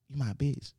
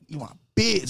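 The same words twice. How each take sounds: First: It is said softly and timidly. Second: It is said aggressively and forcefully.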